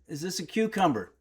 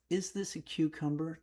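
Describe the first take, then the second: First: It is asked in a rude tone. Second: It is asked in a polite tone.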